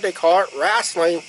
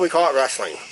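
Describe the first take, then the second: First: It is said in a Southern US accent. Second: It is said in a Northern US accent. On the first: This is how people in the South say it. "that's how they pronounce it back down, down, down south, down in Georgia" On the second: This is how people up north say it. "Up here"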